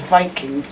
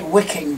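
First: The word begins with a V sound. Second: The word begins with a W sound. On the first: This is how it is said in German. "meant to be pronounced as Viking" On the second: This is how an English reader would say it. "in English it would say wicking"

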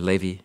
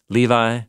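First: The name is pronounced the Hebrew way. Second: The name is pronounced the English way.

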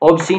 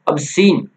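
First: The first vowel is an open 'aw' sound. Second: The first vowel is a short 'uh' sound. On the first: The speaker calls it wrong. "ऑब्सीन नहीं बोलेंगे इसको" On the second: The speaker calls it right. "क्या बोलेंगे हम अबसीन"

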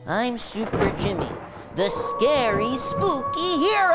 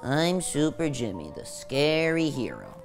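First: It is said with full conviction and energy. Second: It is said half-heartedly, with a sigh.

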